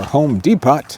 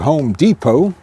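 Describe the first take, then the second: First: It is said with a Spanish accent. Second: It is said with an English accent.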